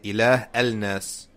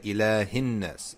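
First: The article is said as a separate syllable. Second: The words run together with no separate article. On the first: The speaker calls it wrong. "You don't say ilah al-nas" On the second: The speaker calls it right. "No, you say ilahinnas. It's just a connector"

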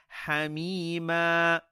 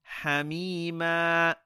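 Both takes have the same delivery.

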